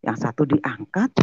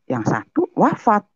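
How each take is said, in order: First: Diangkat given weight; stress on diangkat. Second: Wafat said much higher; stress on wafat. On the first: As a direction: weigh diangkat against wafat. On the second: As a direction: lift wafat high to contrast it. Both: Shown as a demonstration. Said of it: "Saya gituin kan".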